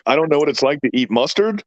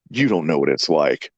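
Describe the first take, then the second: First: Retold disbelief, rising at the end; incredulous echo question. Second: Much lower, straight-faced authority; imitating grave conviction. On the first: Dad answering son's complaint about mustard, incredulous. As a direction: throw it back as a baffled question. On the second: Son telling dad about his mustard suffering, gravely. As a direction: say it low, like a solemn sufferer. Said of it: "he sounded like he had authority".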